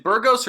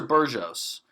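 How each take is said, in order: First: "Burgos" with g as in "go"; hard-g pronunciation. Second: "Burgos" with g as in "gem"; soft-g pronunciation. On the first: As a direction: say "Burgos" as BUR-gohs, with a hard g. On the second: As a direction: say "Burgos" as BUR-johs, with a soft g. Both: Shown as a demonstration. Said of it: "is it Burgos or Burgos".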